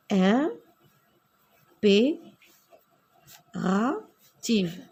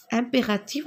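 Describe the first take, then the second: First: Mot étiré très lentement; étirée lentement. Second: Said in the usual way. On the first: Shown as a demonstration. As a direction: articule chaque syllabe très lentement. (impérative détachée, très lente)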